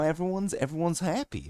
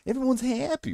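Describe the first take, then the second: First: High, soft sing-song voice; weird funny voice. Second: Much higher, mocking echo of everyone's happy; mocking his voice. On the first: Acted. Explaining funny voices to chat, slipping into a high soft silly voice. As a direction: suddenly go up into a silly cooing tone. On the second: Shown as a demonstration. Questioning his own odd voice to chat with a high mocking echo. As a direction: squeak it back at yourself in disbelief. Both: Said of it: "Whatever kind of voice that was".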